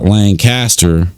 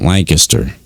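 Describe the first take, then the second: First: The syllables are said separately and distinctly. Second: The syllables are blended together quickly. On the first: The speaker is an outsider. "which is the way, you know, you would pronounce it" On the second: The speaker is a local. "everybody that lives in that city calls it Lancaster"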